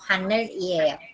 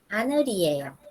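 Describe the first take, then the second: First: The consonant sounds like an L. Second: The consonant sounds like an R. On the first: The speaker calls it wrong. "nosotros no decimos" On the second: The speaker calls it right. "ya no se va a leer como una L, sino como una R"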